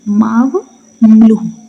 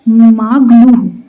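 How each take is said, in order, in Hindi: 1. नाम की शुरुआत 'maw' ध्वनि से होती है। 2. नाम की शुरुआत 'mag' ध्वनि से होती है।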